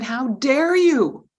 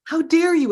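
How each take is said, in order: First: Loud, slow indignant yell; angry yell. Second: Loud and much higher, shrieking it again; higher angry yell. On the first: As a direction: drag out each word, outraged. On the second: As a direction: push the repeat up into a higher, outraged shriek. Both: Retold or imitated. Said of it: "yelled at me and said".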